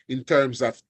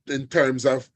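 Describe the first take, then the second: No difference in how they are said.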